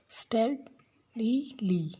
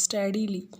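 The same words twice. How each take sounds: First: "Steadily" very slowly in three separate beats; syllable by syllable. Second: Said in the usual way. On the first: Shown as a demonstration. Teacher counting three syllables, "Steadily" slowly broken apart. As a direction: break "Steadily" into stea, di, ly with pauses. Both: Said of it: "three syllables".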